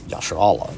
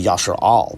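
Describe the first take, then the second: First: The final consonant is followed by a vowel. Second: The word ends on a bare consonant. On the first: "they vocalize the last character" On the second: "not vocalize the last character"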